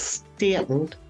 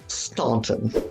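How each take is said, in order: First: The first vowel is short, like 'stan'. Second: The first vowel is broad, like 'stawn'. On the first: The speaker is from the local area. The speaker calls it right. "So it's Stanton" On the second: The speaker is not from the local area. The speaker calls it wrong. "not Staunton"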